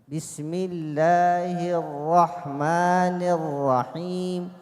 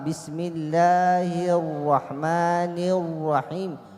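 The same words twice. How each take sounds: First: The r is said with unrounded, relaxed lips. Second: The r is said with rounded, pushed-out lips. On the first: The speaker calls it right. "الراء تخرج من طرف اللسان" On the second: The speaker calls it wrong. "لا أفعل"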